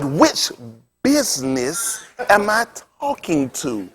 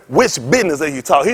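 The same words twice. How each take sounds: First: Very slow, softly drawn-out imitation; slow-talking preacher. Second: Said in the usual way. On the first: Imitating the preacher asking which caller, very slow talk. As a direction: mimic his careful, dragging phone manner. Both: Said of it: "He talked like that".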